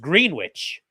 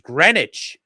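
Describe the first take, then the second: First: It is said with the local Ohio pronunciation. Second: It is said with the New England pronunciation. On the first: This is how the Ohio town's name is actually said. "and it's pronounced Greenwich" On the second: This is how someone from New England would say it. "you might pronounce as Greenwich if you're from New England"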